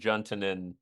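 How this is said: The name is said with an English pronunciation. "in the English"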